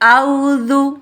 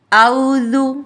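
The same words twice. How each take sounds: Both takes have the same delivery.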